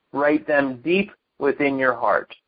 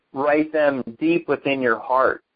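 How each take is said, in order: Both takes have the same delivery.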